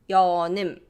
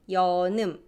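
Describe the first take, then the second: The two takes are said the same way.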